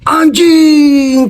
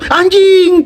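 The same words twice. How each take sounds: First: It is said with an admiring, impressed tone. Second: It is said with an annoyed, cursing tone. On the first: Something is being praised. "memuji orang itu bisa anjing keren banget" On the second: Something annoying just happened. "cicak nih jatuh ke piring ganti nama anjing"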